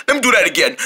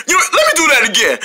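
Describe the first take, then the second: First: Said in the usual way. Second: Quick laughing repeat. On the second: Acted.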